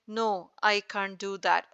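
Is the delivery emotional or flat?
flat. It is said flatly, without emotion. The speaker calls it wrong. "rather than saying"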